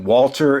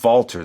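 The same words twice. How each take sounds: First: The name starts with a W sound. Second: The name starts with a V sound. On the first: This is how many people say it in the United States. "a lot of people pronounce it Walter in the United States" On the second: This is how it is said in the UK. "you pronounce it with a V sound"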